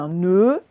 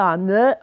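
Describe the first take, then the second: First: The vowel is said with a closed mouth. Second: The vowel is said with an open mouth. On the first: The speaker calls it right. "on dit" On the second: The speaker calls it wrong. "on ne dit pas"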